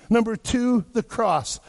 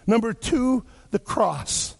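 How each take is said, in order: Both takes have the same delivery.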